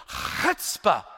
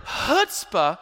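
First: Chutzpah with a drawn-out, throaty Hebrew "ch"; Hebrew accent. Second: Said in the usual way. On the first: Shown as a demonstration. Preacher naming the Hebrew word for faith, Hebrew accent. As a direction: scrape out the Hebrew opening of chutzpah. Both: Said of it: "It's the Hebrew".

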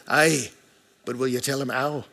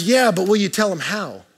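First: Lower, softer attempt at a Scottish mom; bad Scottish accent. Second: Said in the usual way. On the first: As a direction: try a gentle, not very good Scottish accent. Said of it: "I don't have a good Scottish accent". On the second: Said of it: "her point was".

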